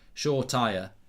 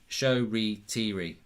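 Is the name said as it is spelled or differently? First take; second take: as spelled; differently. First: The name is said the way it is spelled. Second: The name is said differently from its spelling. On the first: The speaker calls it wrong. "it does look like it's pronounced" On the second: The speaker calls it right. "is right"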